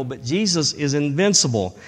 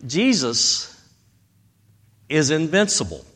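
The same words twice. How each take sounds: First: Said in the usual way. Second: Jesus, a pause, then is invincible set apart; slow emphatic pause. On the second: Shown as a demonstration.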